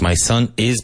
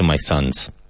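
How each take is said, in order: First: The verb is said as a separate word. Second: The verb is reduced and joined to the noun. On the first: "so it's my son is" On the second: "but contracted to my sons"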